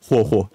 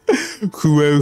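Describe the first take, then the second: First: The name is said with its original pronunciation. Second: The name is said with an altered pronunciation. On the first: The speaker calls it right. "can actually like say her name right" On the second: The speaker calls it wrong. "everyone else is like"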